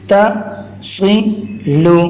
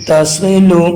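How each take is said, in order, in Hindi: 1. शब्द को अलग-अलग अक्षरों में तोड़ा गया है। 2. शब्द एक ही इकाई की तरह सहजता से पढ़ा जाता है। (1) "पहले मैं रेड कलर वाले को पढ़ता हूँ" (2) "मिलाकर उसे मैं पढ़ता हूँ"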